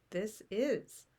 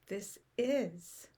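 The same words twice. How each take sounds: The two takes are said the same way.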